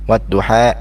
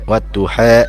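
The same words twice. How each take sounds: First: The final vowel leans toward an 'a' sound. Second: The final vowel leans toward an 'e' sound. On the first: The speaker calls it right. "bacaan yang betul adalah wadduha" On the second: The speaker calls it wrong. "itu kurang tepat"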